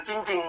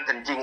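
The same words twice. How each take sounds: First: "cincing" said with a CH sound at the start; Ambon pronunciation. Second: Said in the usual way. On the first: Shown as a demonstration. Ustaz showing how Ambonese say the word, "cincing". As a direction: swap the K of kencing for CH: "cincing". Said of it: "orang Ambon bilang cincing". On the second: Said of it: "Orang Jawa bilang kencing".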